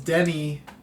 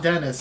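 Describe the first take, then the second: First: The name is said like Denny, without final s. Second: The name is said like English Dennis. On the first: The speaker calls it right. "It's Denny Villeneuve" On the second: The speaker calls it wrong. "It's not Dennis"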